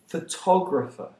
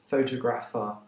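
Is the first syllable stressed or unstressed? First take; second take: unstressed; stressed. First: The stress is not on the first syllable. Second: The stress is on the first syllable. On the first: The speaker calls it right. "they are pronounced" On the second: The speaker calls it wrong. "deriving the stress from the word photo. That's wrong"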